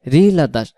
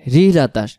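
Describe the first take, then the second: No difference in how they are said.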